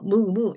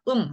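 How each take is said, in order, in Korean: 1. 두 음절로 따로 발음해요. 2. 한 소리로 발음해요. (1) "이게 아니라" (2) "그냥 음, 한 소리예요"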